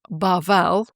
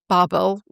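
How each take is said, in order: First: The name is pronounced the Hebrew way. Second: The name is pronounced the English way. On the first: "Key Hebrew terms" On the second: "Babel was how we would pronounce it"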